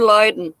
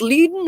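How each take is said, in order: First: First syllable of Leiden like "lie"; "LIE-den" pronunciation. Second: First syllable of Leiden like "lee"; "LEE-den" pronunciation. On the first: Streamer offering the other pronunciation, Leiden said LIE-den. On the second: Streamer asking how it is pronounced, Leiden said LEE-den. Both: Shown as a demonstration. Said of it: "Is it pronounced Leiden or Leiden".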